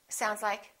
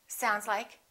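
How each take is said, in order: No difference in how they are said.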